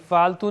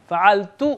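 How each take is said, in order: First: فالتو said plainly as faltu, no throat sound; without the ain. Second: فعلتو with a clear throaty ain after the fa, faʕaltu. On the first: Teacher showing the wrong way to say فالتو, plain faltu. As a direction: drop the ain in فالتو, ordinary Urdu f-a-l. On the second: Teacher to students on saying فعلتو, with the ain sounded. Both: Shown as a demonstration. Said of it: "عین کی آواز نکالنا پڑے گی".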